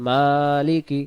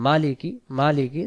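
First: মালিকি with a long held "maa"; one-alif stretch. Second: মালিকি said with a brief "ma"; mistaken short vowel. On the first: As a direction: chant মালিকি, stretching its first syllable. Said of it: "এখানে হবে". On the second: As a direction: say মালিকি plainly, without stretching the first syllable. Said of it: "উচ্চারণ হবে না". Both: Shown as a demonstration.

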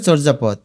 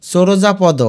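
First: চর্যাপদ as "chorjapod"; correct closed consonants. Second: চোরজাপদ as "choro-ja-podo"; wrong added vowels. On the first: Teacher shows reading with hasanta, চর্যাপদ ending on consonant. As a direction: end চর্যাপদ on d with no vowel. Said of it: "তাহলে উচ্চারণ হবে". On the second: Teacher warns what happens without hasanta, চোরজাপদ with extra vowels. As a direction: voice an o after r and final d in চোরজাপদ. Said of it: "না হলে হয়ে যাবে". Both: Shown as a demonstration.

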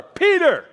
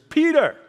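First: "Peter!" called even louder and higher, almost a shout; the voice calls "Peter!" at full force. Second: Loud, high call of the name "Peter!"; a voice calling "Peter!" loudly. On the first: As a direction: shout "Peter!" as the stronger second call. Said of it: "this time he hears it louder". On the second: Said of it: "he hears". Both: Retold or imitated.

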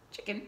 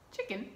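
Both takes have the same delivery.

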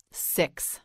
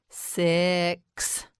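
First: Said in the usual way. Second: "Six" slowly, vowel and ending drawn out; stretched out. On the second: Shown as a demonstration. Teacher models the number word, "Six" slowly stretched. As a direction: draw out "Six" sound by sound. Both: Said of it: "Now you say it".

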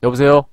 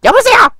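First: Said in the usual way. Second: Much higher, louder phone voice; squeaky put-on phone greeting; high falsetto hello.

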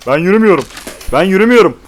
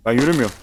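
First: Louder and higher, building; frustrated shout. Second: Said in the usual way. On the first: Real, not acted. Repeats the same words louder.

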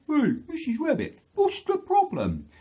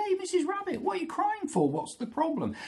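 First: High, loud story-bear hail; Mister Bear. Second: Very high-pitched inquiring bird voice; Mister Cockerel. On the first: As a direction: call out as a concerned bear. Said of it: "but Mister Bear". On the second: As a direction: pipe up as a concerned cockerel. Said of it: "Mister Cockerel". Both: Acted.

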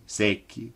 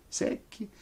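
First: Said in the usual way. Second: High breathless whisper of secchi. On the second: A narrator's reading. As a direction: whisper secchi thin and dry. Repeated word for effect.

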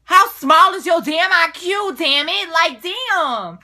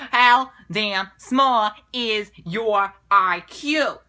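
First: Loud, higher, furious comeback; shouted comeback to a rude question; angry retort. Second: Slow, deliberate put-down with every word drawn out; slow sarcastic jab; slow mocking retort. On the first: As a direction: hurl the insult back loud and high. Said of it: "I'm just so full of anger right now". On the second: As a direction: spell out the insult slowly and pointedly. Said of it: "I'm so mad". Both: Real, not acted.

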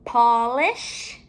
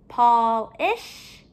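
First: Said in the usual way. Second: POLISH with a break before "ish"; ending separated. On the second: Shown as a demonstration. Teacher comparing word endings for pupils, final syllable separated. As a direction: split POLISH in two, ending rising.

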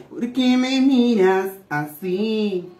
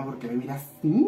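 First: Slow, playful sung phrase; sung, break into a drawn-out song snippet; sung line. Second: Said in the usual way. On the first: Shown as a demonstration. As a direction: sing it out with long drawn notes. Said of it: "Ya le iba a cantar la canción". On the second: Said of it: "yo me puse nerviosa".

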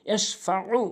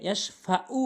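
First: ইয়াশফাউ with a squeezed mid-throat ain; correct ain. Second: ইয়াশফাউ with a light glottal stop; hamza replacing ain. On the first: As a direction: press the last syllable of ইয়াশফাউ from the throat. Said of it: "আইনের উচ্চারণ করতে হবে এভাবে". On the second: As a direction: say ইয়াশফাউ without the throat ain. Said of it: "আইনের জায়গায় হামজা". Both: Shown as a demonstration.

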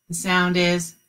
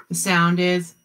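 No difference in how they are said.

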